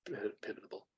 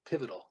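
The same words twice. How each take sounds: First: Pivotal stumbled, broken off at pi- then restarted; tripped-up word. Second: Said in the usual way. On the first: Real, not acted. Speaker to audience, tongue tied after a long night, stumbling over pivotal. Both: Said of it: "You can tell I've been talking a lot tonight".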